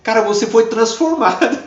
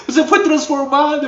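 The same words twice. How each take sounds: First: Said in the usual way. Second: Much higher, emphatic echo. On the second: Retold or imitated. Preacher echoing the girl's words triumphantly, much higher. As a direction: repeat it as triumphant proof. O diabo tendo que reconhecer.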